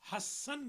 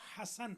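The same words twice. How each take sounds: First: The s sound is doubled and held longer. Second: The s sound is single and short. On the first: The speaker calls it wrong. "ये सीन पर शद नहीं है, हसन नहीं है जो उमूमन हमारे लोग पढ़ते हैं" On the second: The speaker calls it right. "बल्कि हसन है"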